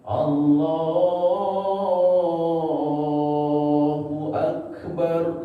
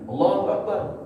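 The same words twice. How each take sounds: First: The vowel in Allah is drawn out long. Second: The vowel in Allah is kept short.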